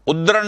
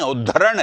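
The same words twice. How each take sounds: First: उद्रण clipped, missing the ध syllable; the mistaken short उद्रण; wrong form. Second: उद्धरण with a full aspirated द्ध; correct form. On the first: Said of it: "उद्धरण है". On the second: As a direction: say all of उद्धरण, breathy ध. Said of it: "उद्रण नहीं है". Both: Shown as a demonstration.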